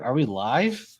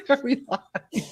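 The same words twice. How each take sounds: First: Said in the usual way. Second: Laughing. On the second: Pretend. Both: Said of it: "I'd be like".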